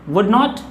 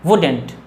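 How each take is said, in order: First: Both words are said fully and separately. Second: The words are joined into one contracted word.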